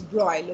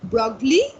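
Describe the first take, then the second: First: No g sound is heard in the name. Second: A hard g sound is heard in the name. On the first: The speaker calls it right. "the pronunciation is Broglie ... the G is silent" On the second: The speaker calls it wrong. "The pronunciation is not Broglie"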